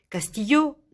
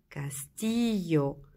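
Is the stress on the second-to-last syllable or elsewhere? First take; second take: elsewhere; second-to-last. First: The stress is not on the second-to-last syllable. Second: The stress is on the second-to-last syllable. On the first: The speaker calls it wrong. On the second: The speaker calls it right.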